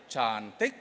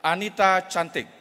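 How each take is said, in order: First: "Cantik" drawn out with emphasis; emphatic intonation. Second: Said in the usual way. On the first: Shown as a demonstration. Speaker B echoes speaker A to agree, emphatic drawn-out "Cantik". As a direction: stretch "Cantik" as an emphatic reply. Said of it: "Intonasi menekankan".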